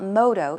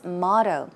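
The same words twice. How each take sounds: First: It is said with a Korean-style pronunciation. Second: It is said with a standard English pronunciation. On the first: The speaker calls it wrong. "Korean version of pronounce, pronouncing the word is motto" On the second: The speaker calls it right. "it's motto"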